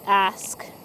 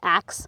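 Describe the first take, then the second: First: The word ends with an s then k sound. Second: The word ends with a k then s sound. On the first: "that was me like purposely trying to say ask with S K" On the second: "I always say ax, like A X"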